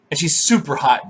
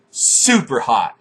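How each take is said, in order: First: Said in the usual way. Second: "Super hot" drawn out slowly, each word leaned on; slow emphatic repeat. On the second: Real, not acted.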